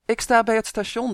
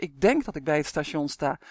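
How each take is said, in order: First: Louder, higher, certain statement rising at the end; mother shouting her location into the phone; calling. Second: Lower, hesitant correction with stress on denk; mother correcting herself, unsure of where she is. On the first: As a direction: call it out confidently. Mother states, then corrects herself. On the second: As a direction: hedge it, doubting yourself. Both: A narrator's reading.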